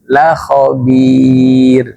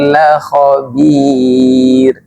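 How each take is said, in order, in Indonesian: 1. Vokal dari 'la' pendek. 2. Vokal dari 'la' pendek.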